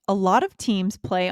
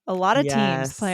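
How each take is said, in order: First: Each word of 'a lot of' is said clearly. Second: 'A lot of' runs together quickly as 'a lotta'.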